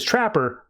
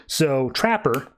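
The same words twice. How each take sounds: First: Trapper called out high, with a falling end; calling out. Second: Said in the usual way. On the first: Shown as a demonstration. Giving Trapper a weapon, calling his name out high. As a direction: call "Trapper" across the room, higher. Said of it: "he says". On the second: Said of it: "that's his name".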